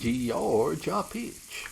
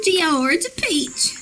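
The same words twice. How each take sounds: First: Slow, drawn out Georgia peach; stretched out slowly, savoring; slow drawl. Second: Slow, higher drawn out; slow drawl. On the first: Drawling drink name, slow. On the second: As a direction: stretch it out slowly. Repeats drawl, slow high. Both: Pretend.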